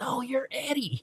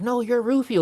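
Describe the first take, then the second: First: Slow, high and softer voice on Eddie; lightly voiced Rufio, drawn out; insisting back. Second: High, eager insistence on Rufio; star-struck. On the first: Rufio insisting Eddie is the star, mock voice. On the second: Retold or imitated. Eddie insisting Rufio is the star, excited. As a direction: toss the praise back, pitched up.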